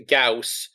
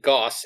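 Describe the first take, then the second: First: "Gauss" as gowss, the vowel gliding from ah to oo; Gauss rhyming with house. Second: "Gauss" as gawss, one vowel with no glide; Gauss as goss. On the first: Player correcting herself for listeners, "Gauss" pronounced gowss. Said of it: "I'm aware it's pronounced Gauss". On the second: Player giving the preferred version, "Gauss" pronounced goss. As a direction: say "Gauss" with an open aw vowel, like boss. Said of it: "I think Gauss is better". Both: Shown as a demonstration.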